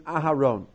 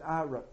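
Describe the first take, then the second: First: The name is said with its first syllable. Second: The name is said without its first syllable. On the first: The speaker calls it right. "even the name Aharon" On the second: The speaker calls it wrong. "he dropped the first syllable of the word Aharon"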